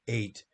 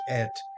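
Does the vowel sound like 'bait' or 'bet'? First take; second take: bait; bet. First: The word has a long 'ay' vowel. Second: The word has a short 'eh' vowel. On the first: This is a reading-tradition pronunciation that depends on accentuation. "Sometimes when people read the Torah, they pronounce it eight" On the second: This is the ordinary modern pronunciation. "normally in modern Hebrew pronounced et"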